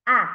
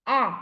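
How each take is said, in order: First: "A" as short "ah", mouth wide open; open vowel sound. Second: "A" as short "eh", mouth less open; narrower short vowel. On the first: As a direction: open the mouth bigger for "A", saying "ah". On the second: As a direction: say "A" as a brief, half-open vowel sound. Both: Shown as a demonstration. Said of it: "You have to open your mouth bigger".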